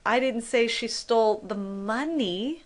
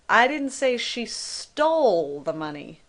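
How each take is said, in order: First: The stress is on "money". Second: The stress is on "stole".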